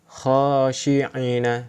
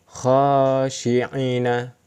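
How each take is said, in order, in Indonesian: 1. Vokal setelah 'ain' dibaca pendek. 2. Vokal setelah 'ain' dibaca pendek.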